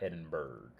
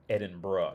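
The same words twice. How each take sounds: First: The name ends with a hard 'burg' sound. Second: The name ends with a soft 'bruh' sound. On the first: The speaker calls it wrong. "not Edinburgh" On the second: The speaker calls it right. "you pronounce it Edinburgh"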